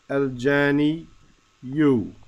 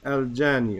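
First: The word ends with a 'yu' sound. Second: The word ends on a long 'ee' sound. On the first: The speaker calls it wrong. "We don't see it nor do we pronounce it" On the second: The speaker calls it right. "We just say al-jani"

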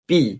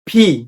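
First: The p sound is plain, with no puff of air. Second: The p sound is aspirated, with a puff of air. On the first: The speaker calls it wrong. "এটা আমরা আবার সবাই বলি পি পি পি" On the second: The speaker calls it right. "বাতাস বের হবে"

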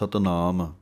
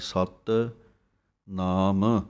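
First: The two parts run together without a gap. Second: A short gap separates the two parts. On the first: The speaker calls it wrong. "ਕਈ ਇਕੱਠਾ ਪੜ੍ਹਦੇ ਹਨ" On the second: The speaker calls it right. "ਥੋੜ੍ਹਾ ਜਿਹਾ space ਦੇ ਕੇ ਬੋਲਣਾ ਹੈ"

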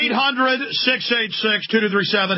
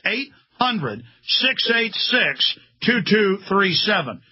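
First: The number is said fast. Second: The number is said slowly.

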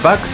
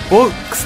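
First: The first vowel is a clear 'a'. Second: The first vowel is a clear 'o'. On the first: "バックスでもない" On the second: "ボックスでもなく"

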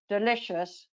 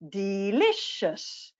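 First: The word is said in a flat voice. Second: The word is said in a lively voice. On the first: The speaker calls it wrong. "we don't say delicious" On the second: The speaker calls it right. "we're going to move our voice. ... we say delicious"

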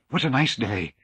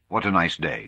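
First: It is said breathlessly, as if frightened. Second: It is said in a plain, ordinary tone.

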